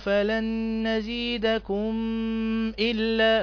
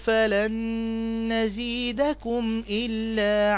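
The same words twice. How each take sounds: First: The final m is merged or hidden, not clear. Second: The final m is pronounced fully and clearly. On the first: The speaker calls it wrong. "ما تقولش بقى ... لا غلط" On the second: The speaker calls it right. "تنطق هكذا بلا إضغام ولا إخفاء"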